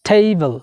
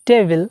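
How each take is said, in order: First: The t has a strong puff of air. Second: The t has no puff of air. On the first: The speaker calls it right. "টি কে আজকে থেকে আমরা ঠ বলবো" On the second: The speaker calls it wrong. "আমরা বলতাম টেবিল"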